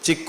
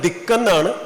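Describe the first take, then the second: First: The word begins with a ch sound. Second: The word begins with a d sound. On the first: The speaker calls it wrong. "ചിക്കു അല്ല" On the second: The speaker calls it right. "ദിക്കെന്നാണ് ഉച്ചരിക്കുന്നത്"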